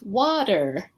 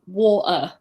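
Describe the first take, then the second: First: The t sounds soft, like a d. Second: The t sound is left out entirely. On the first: "In America, they have a lot of, if it's AT, it's water" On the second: "people saying water or bottle and there's no T"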